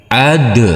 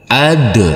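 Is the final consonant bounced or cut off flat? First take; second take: bounced; bounced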